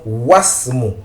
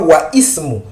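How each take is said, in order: First: The two words merge with no 'i' sound. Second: The 'i' of the second word is pronounced separately. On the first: The speaker calls it right. "Voilà pourquoi nous disons wasmu" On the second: The speaker calls it wrong. "Nous ne disons pas wa ismu"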